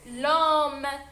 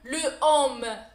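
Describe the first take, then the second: First: The article's vowel is dropped and joined on. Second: The article's vowel is kept before the noun. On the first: The speaker calls it right. "نقراها ديريكت l'homme" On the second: The speaker calls it wrong. "je ne peux pas prononcer ce mot"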